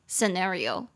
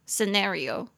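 First: It is said with an American accent. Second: The same.

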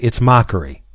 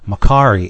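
First: It is said as 'MOCK-er-ee'. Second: It is said as 'ma-KAH-ree'. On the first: The speaker calls it right. "even though I know it's mockery" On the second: The speaker calls it wrong. "I pronounce it Makari"

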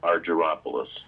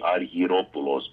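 First: The name is said with American English pronunciation. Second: The name is said with Greek pronunciation. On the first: This is how the family actually says it. "say it in your real authentic voice" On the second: This is how it would be said in Greek. "If it was Greek, it would be Argyropoulos"

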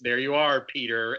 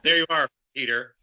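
First: It is said plainly, as a quote. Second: It imitates the line's delivery in Hook.

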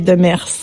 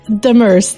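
First: The name is said the French way. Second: The name is said the English way.

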